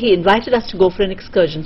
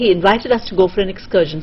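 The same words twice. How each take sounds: First: Only key words are stressed; small words are compressed. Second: The same.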